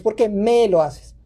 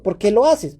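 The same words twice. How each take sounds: First: Slow question leaning on "me"; stress on ME. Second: Said in the usual way. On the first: Shown as a demonstration. Parent taking it personally, heavy drawn-out stress on "me". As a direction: draw out and press the word "me". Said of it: "Pero no es "¿Por qué me lo haces?". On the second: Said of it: "Pero no es".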